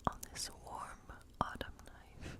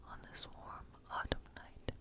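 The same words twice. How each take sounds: The two takes are said the same way.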